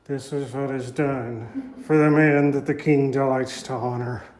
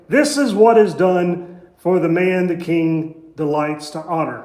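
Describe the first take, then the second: First: It is forced out grudgingly, word by word. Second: It is read plainly and evenly.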